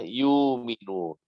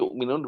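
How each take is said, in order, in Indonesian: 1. Vokal u panjang menggantikan hamzah. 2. Hamzah mengikuti suku kata pertama. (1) "dibaca yu'minun"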